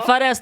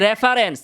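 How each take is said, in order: First: The word starts without an r sound. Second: The word starts with an r sound. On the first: The speaker calls it wrong. "এফারেন্স না" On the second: The speaker calls it right. "এটা হচ্ছে রেফারেন্স"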